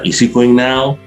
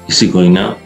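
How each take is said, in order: First: The pitch rises clearly at the end. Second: The pitch stays flat with unclear question intonation. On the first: The intonation also marks it as a question. "nah itu lebih bagus lagi" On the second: The word order alone marks it as a question. "walaupun intonasinya kurang jelas pun"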